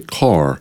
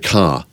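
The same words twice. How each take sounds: First: It is said in an American accent. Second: It is said in the speaker's own local accent. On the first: "but they say car" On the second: "We say car"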